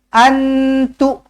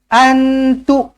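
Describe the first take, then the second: The two takes are said the same way.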